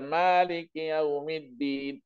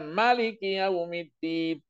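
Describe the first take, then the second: First: The first vowel of Maliki is long. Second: The first vowel of Maliki is short. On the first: God owns the Day of Judgment. "yang memiliki hari kiamat" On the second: God is king on the Day of Judgment. "Al-milk berarti raja"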